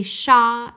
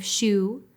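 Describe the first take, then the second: First: "sha" said with an open ah vowel, as the wrong take; "sha" rhymes with spa, the mistaken sound; distorted vowel. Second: "shu" said with a rounded oo vowel, as the right take; "shu" rhymes with shoe, the intended sound; correct vowel. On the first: Therapist shows viewers the distorted vowel, an open "sha". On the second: Therapist shows viewers the correct vowel, a rounded "shu". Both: Shown as a demonstration. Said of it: "A person may say sha instead of shu".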